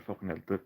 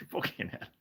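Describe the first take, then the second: First: Embarrassed mutter. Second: Whispered curse. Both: Real, not acted. Embarrassed at the Reggie slip.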